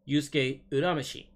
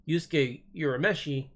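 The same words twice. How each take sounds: First: Urameshi begins with an 'oo' sound. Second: Urameshi begins with a 'you' sound. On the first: The speaker calls it right. "it should be pronounced" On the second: The speaker calls it wrong. "instead of"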